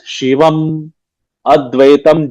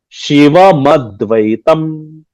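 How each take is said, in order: First: The two words are said apart, unlinked. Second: The m runs straight into the next word. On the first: This helps in understanding the text. The speaker calls it wrong. "right now we are pronouncing it as Shivam Advaitam just because we want to understand the" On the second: This is the regular way to read it. The speaker calls it right. "we can just say Shiva Madvaitam"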